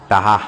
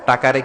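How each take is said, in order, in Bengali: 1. শব্দটি 'h' ধ্বনি দিয়ে উচ্চারিত হয়। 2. শব্দটি 'k' ধ্বনি দিয়ে উচ্চারিত হয়। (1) "ক বলতে পারে না বরিশালের ভাইয়েরা" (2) "টাকারে কি বলে টাহা"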